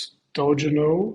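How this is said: The name is said the English way. "in English, it probably would be something close to"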